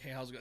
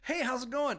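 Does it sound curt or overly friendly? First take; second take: curt; overly friendly. First: It sounds curt and blunt. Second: It sounds exaggeratedly friendly and nice.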